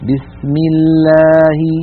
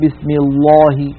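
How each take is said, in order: First: The L is light, with a thin clear sound. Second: The L is heavy, with a full hollow sound. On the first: The speaker calls it right. "فتبقى اللام على أصلها في الترقيق فنقول مثلا بسم الله" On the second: The speaker calls it wrong. "ولا نقول بسم الله"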